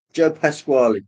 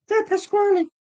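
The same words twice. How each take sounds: First: Said in the usual way. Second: Very high squeaky comic voice; Joe Pasquale squeak. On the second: Retold or imitated. Naming the comedian in his own very high squeaky voice. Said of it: "Joe Pasquale, that's the man".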